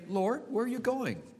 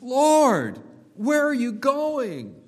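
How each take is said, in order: First: It is said in a calm, casual way. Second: It is said in a troubled, distressed way. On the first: The question is asked idly, without concern. The speaker calls it wrong. "Peter did not say" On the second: The one asking is upset about being left behind. The speaker calls it right. "He's troubled"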